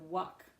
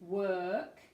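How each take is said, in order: First: The vowel is short, like a quick uh. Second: The vowel is long, with lips pushed forward. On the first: The speaker calls it wrong. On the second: The speaker calls it right.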